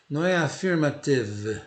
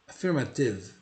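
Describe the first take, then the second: First: "affirmative" said with an audible final e; "affirmative" with a wrong final e; wrong pronunciation demo. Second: "Affirmative" ending dead on the v, no final vowel; "Affirmative" ending on v, with no vowel after it; correct pronunciation. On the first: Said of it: "eu não pronuncio o E". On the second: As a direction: close "Affirmative" on the v. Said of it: "Morre no V". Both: Shown as a demonstration.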